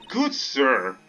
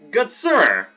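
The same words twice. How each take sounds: First: It is said in the speaker's own voice. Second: It is said in a put-on female character's voice.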